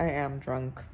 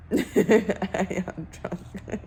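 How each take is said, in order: First: Said in the usual way. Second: Very slow, laughing through the words. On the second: Real, not acted. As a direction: giggle out the confession, drawn out. Repeats it, laughing.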